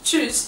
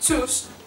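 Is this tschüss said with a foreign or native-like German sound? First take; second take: native-like; foreign. First: The word has a native-like German pronunciation. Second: The word has a non-native, foreign-sounding pronunciation. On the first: The speaker calls it right. "the actual word is" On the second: The speaker calls it wrong. "I sometimes say like"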